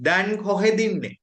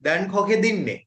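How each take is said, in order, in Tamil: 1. இரண்டு சொற்களும் இணைந்து ஒரே சொல்லாக ஒலிக்கப்படுகின்றன. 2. இரண்டு சொற்களும் இணைந்து ஒரே சொல்லாக ஒலிக்கப்படுகின்றன.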